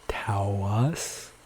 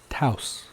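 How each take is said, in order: First: The word is said with two syllables. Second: The word is said with one syllable. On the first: The speaker calls it wrong. "a lot of people say Taos, since there's an A" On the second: The speaker calls it right. "the correct pronunciation is just a single syllable sound"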